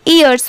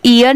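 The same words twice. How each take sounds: First: ईयर्स with an s after the r; final s sounded. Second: ईयर ending on r, no s; final s left off. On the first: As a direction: end ईयर्स on a clear स. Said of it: "ईयर्स पढ़ेंगे". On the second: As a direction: say ईयर without the plural स. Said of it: "सिर्फ ईयर नहीं पढ़ेंगे". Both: Shown as a demonstration.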